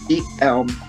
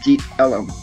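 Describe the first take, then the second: First: The second word has one syllable, like elm. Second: The second word has two syllables, like ellum. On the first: "I have heard it pronounced both" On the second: "I have heard it pronounced both"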